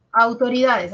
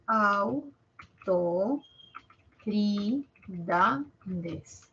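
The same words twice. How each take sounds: First: Said in the usual way. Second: Autoridades stretched out very slowly, syllable by syllable; slow syllable split. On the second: Shown as a demonstration. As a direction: drag Autoridades apart syllable by syllable. (Autoridades muy despacio, sílaba por sílaba)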